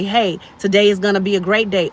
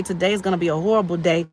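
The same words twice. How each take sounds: First: Mildly upbeat morning declaration; positive self-talk. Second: Quick, glum mumbled forecast, acted; negative self-talk. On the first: Acted. Speaker voicing someone waking up to choose a good day, mildly upbeat. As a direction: greet the day with easy confidence. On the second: Speaker voicing someone waking up to a bad day, quick and dismissive. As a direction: write the day off in a hurry. Acts positive versus negative morning attitude.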